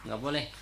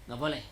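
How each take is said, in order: Both takes have the same delivery.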